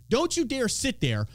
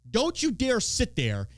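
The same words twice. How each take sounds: The two takes are said the same way.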